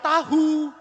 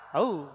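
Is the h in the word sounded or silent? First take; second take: sounded; silent. First: The h is sounded between the two vowels. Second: The h is silent and the vowels run together. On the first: The speaker calls it wrong. "apakah saudara ngomong, saya sudah tahu? Enggak kan?" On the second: The speaker calls it right.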